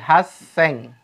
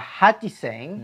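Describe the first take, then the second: First: The chi syllable is dropped and merged. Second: The word keeps a full chi syllable. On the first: The speaker calls it right. "Berubah menjadi haseng" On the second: The speaker calls it wrong. "harusnya adalah hachiseng"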